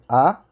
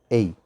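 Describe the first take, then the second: First: The article is a short weak 'uh' vowel. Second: The article is a full 'ay' vowel. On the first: "A primeira é como a gente está falando aí" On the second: "a gente também poderia pronunciar isso como ei"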